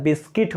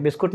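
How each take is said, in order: First: बिस्किट with an i in the second syllable, bis-kit; correct pronunciation. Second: बिस्कुट with an u in the second syllable; wrong pronunciation. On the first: Shown as a demonstration. Teacher to students, modelling the right बिस्किट. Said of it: "होता है". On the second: Retold or imitated. Teacher to students, quoting the wrong बिस्कुट. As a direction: say बिस्कुट, ending in -kut. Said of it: "नहीं होता".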